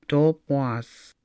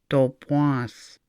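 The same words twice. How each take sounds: No difference in how they are said.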